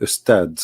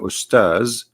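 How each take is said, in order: First: The word ends with a d sound. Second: The word ends with a z sound. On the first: The speaker calls it wrong. "you don't say Ustad" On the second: The speaker calls it right. "which means Ustaz"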